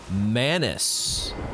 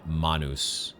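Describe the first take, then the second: First: It is said with an English-style pronunciation. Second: It is said with a Latin-style pronunciation. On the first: The speaker calls it wrong. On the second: The speaker calls it right.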